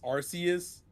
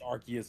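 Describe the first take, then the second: First: The first syllable sounds like 'arss', with an s. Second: The first syllable sounds like 'ark', with a k. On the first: This is the original way to say the name. "the original pronunciation is Arceus" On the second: This way avoids sounding like a rude word. "most people say it's Arceus now"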